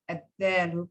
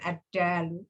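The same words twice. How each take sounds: First: The d is the Arabic dal sound. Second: The d is the Indonesian D sound. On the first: The speaker calls it right. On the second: The speaker calls it wrong.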